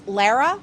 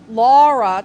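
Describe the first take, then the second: First: The first vowel is a long open 'ah'. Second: The first vowel is a rounded 'aw' sound. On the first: "that extended A" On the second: "it sounds like I feel like Doug the dog"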